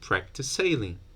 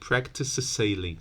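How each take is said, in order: First: The two s sounds merge into one. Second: Both s sounds are pronounced separately. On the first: The speaker calls it right. "You delete one. You just say practice sailing" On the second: The speaker calls it wrong. "You don't have to say practice sailing. S -s -s"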